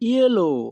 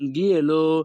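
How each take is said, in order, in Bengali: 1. শব্দটি একটি y উচ্চারণ দিয়ে শুরু হয়। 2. শব্দটি একটি কঠিন g উচ্চারণ দিয়ে শুরু হয়। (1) "আমাদের সঠিক উচ্চারণ হবে ইয়েলো" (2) "বানান করলে উচ্চারণ হয় গিয়েলো"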